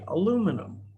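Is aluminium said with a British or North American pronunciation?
North American. It is said with a North American pronunciation. "people in North America would say"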